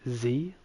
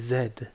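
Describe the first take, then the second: First: The letter is said as American zee. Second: The letter is said as Australian zed.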